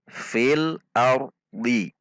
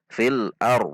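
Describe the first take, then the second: First: The phrase ends with a short i vowel. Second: The phrase ends on a consonant with no vowel. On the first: The reading continues without stopping. "Jika tidak waqaf, maka dibaca fil ardi" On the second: The reading stops at this word. "maka dhadnya disukunkan ar"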